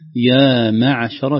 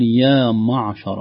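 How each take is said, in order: First: The meem is pronounced light and thin. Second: The meem is pronounced heavy and emphatic. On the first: The speaker calls it right. "ترقيق الميم والعين" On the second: The speaker calls it wrong. "ما هذا تفخيم للميم والميم لا تفخم أبدا"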